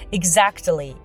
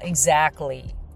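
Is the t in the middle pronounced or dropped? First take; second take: pronounced; dropped. First: The t sound is pronounced. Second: The t sound is dropped. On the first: "t を発音している人もいるんですよ" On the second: "アメリカ英語と言いましょうか、exactly をよく聞きますね"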